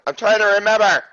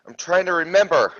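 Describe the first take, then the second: First: Higher, pressured repeat of a protest; flustered insistence. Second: Said in the usual way. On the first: Real, not acted. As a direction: insist under pressure, pitch climbing. Repeats it, more exasperated.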